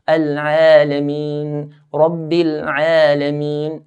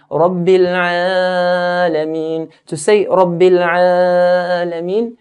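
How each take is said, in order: First: Alameen slow, the Ain vowel held two counts; two-count stretch. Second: Rabbil Alameen louder with the vowel dragged long; over-stretched. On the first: Teacher models the two-count stretch. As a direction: hold the Ain two beats. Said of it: "two counts". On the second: Teacher mocks the common over-stretched Alameen. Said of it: "doing more than two counts". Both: Shown as a demonstration.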